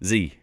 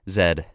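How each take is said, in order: First: The letter is said the American way, 'zee'. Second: The letter is said the non-American way, 'zed'.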